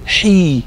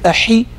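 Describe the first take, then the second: First: The vowel is lengthened. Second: The vowel is short. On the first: The speaker calls it right. "you would say hi" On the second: The speaker calls it wrong. "instead of saying a hi"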